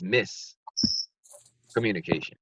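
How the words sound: It has a pause between miss and communication. The speaker calls it right. "Don't forget the pause between the miss and the communication"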